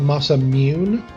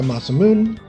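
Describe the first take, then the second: First: A Y sound is added in the word. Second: The final E is not pronounced. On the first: "They add a Y" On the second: "which I think is natural"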